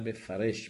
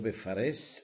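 First: The word ends with an sh sound. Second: The word ends with an s sound. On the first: "אלא בפרש, בשין ימנית" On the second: "לא בפרס"

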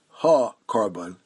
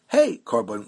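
First: The first syllable has an 'ah' vowel. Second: The first syllable has an 'ay' vowel. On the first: The phrase means the offering itself. "some don't pronounce it ha-korban" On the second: The phrase means by the life of the animal. "but they say hey-korban, which is like saying chai korban"

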